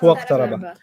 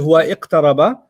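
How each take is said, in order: First: The i sound after huwa is dropped. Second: The i sound after huwa is pronounced. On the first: The speaker calls it right. "You say huwa iqtaraba. ... you don't have to respect it. You can eat it" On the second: The speaker calls it wrong. "You don't say huwa iqtaraba"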